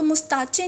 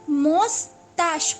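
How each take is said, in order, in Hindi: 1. इस शब्द का अंत 'ch' की आवाज़ से होता है। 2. इस शब्द का अंत 'sh' की आवाज़ से होता है। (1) "इसको मुस्ताचे नहीं पढ़ना" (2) "ये च नहीं है, ये श की साउंड है"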